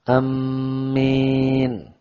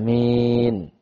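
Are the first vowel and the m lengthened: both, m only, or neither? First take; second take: m only; neither. First: The first vowel is short and the m doubled. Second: The first vowel is short and the m single. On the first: "Ini tasdid ma'al qasar" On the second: "bacaan saat yang pertama qasar"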